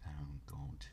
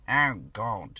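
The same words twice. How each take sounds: First: Whispered, very soft. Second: Said in the usual way. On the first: Real, not acted. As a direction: breathe it out silently. Whispered, then said aloud.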